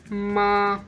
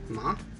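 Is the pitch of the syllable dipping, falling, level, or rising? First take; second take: level; rising. First: The pitch stays high and level. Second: The pitch rises like a question. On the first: "There is a flat tone" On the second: "the second one is a rising tone"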